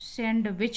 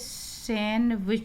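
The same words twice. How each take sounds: First: The d sound is pronounced. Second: The d sound is silent. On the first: The speaker calls it wrong. "सैंडविच नहीं बोला जाता" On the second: The speaker calls it right. "इसको हम बोलेंगे सैंडविच"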